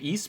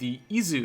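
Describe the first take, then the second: First: The word ends with a plain 's' sound. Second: The word ends with a 'zoo' sound. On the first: The speaker calls it wrong. "I was pronouncing it Is before" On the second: The speaker calls it right. "that is clearly a Zu and not a S"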